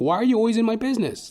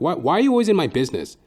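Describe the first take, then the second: First: It is said in a joking way. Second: It is said with anger and heat.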